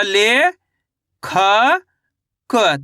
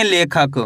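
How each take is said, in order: First: "ले, खा, क" held long, each standing alone; slow teaching sound-out of "ले... खा... क"; syllable by syllable. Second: Said in the usual way. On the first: Shown as a demonstration. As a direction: break it into "ले", "खा", "क" with clear pauses. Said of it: "तो मिलके बन जाएगा लेखक". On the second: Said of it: "कैसे पढ़ेंगे?".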